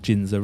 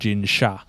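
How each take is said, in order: First: The second syllable starts with a z sound. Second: The second syllable starts with a sh sound. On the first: "I like the za sound" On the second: "It's actually pronounced Sha"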